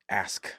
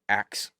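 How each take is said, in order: First: The word ends with s then k. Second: The word ends with k then s. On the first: The speaker calls it right. "instead of ask" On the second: The speaker calls it wrong. "because I said axe instead of ask"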